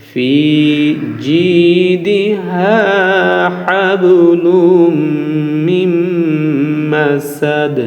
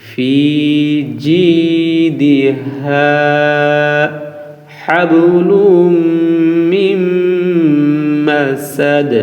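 No difference in how they are said.

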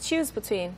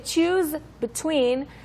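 First: The two words run together with no pause. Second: There is a pause between the two words. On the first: "They're kind of connected together as well" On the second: "then you have to like make a pause there"

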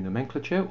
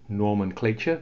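First: The word is said in a British way. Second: The word is said in an American way.

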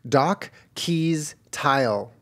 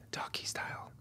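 First: It is spoken in a normal voice. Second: It is spoken in a whisper.

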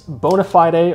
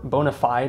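First: The term is said in a non-American way. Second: The term is said in an American way.

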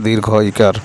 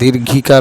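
First: The two words are said as separate words. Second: The two words are run together as one. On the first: The speaker calls it right. "শুদ্ধতম উচ্চারণ হচ্ছে দীর্ঘ ইকার" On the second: The speaker calls it wrong. "আমরা যদি অনেক সময় দীর্ঘিকার বলি"

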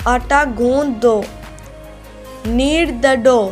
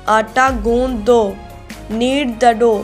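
The two takes are said the same way.

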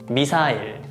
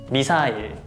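First: It is said with Korean pronunciation. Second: It is said with Korean pronunciation.

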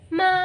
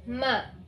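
First: The pitch rises from low to high. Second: The syllable is short and light, without tone. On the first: "Dari bawah lalu ke atas dibaca ma" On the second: "ada juga nada netral, yaitu tidak ada tandanya"

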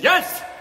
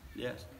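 First: The word is said loudly and forcefully. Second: The word is said softly and feebly. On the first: The speaker is confident and committed. The speaker calls it right. "If he's a man, he said" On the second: The speaker is hesitant and unsure. The speaker calls it wrong. "And if he's a weak man"

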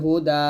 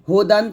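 First: The word ends with a long a vowel. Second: The word ends with an -an ending. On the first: The reading stops on this word. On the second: The reading continues past this word.

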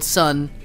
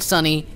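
First: The word has one syllable with no final vowel. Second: The word has two syllables, ending in an ee sound. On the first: The speaker calls it right. "it's called sun, because you apparently don't pronounce the E" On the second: The speaker calls it wrong. "it's not called sunny"

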